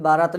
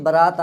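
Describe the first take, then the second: First: बारात with long opening "baa"; village long vowel. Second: बारात said as ba-raat, short "ba"; short first vowel. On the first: Teacher showing what villagers say, long-vowel बारात. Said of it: "नहीं". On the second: Teacher giving the right form, short-vowel बारात. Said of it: "बिल्कुल सही होता". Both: Shown as a demonstration.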